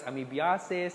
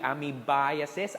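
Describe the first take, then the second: First: The -iasis ending is said the common local way. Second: The -iasis ending is said the recommended way. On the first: The speaker calls it wrong. "when you pronounce it as amoebiasis" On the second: The speaker calls it right. "It should be amoebiasis"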